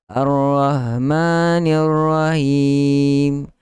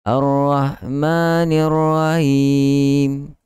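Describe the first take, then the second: First: The breathy h sound is weak and faint. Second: The breathy h sound is weak and faint.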